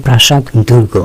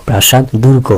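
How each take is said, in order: No difference in how they are said.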